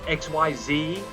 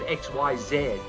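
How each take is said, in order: First: The last letter is said the American way, 'zee'. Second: The last letter is said the British way, 'zed'.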